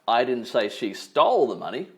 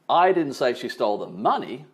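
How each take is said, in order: First: The stress is on "stole". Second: The stress is on "money".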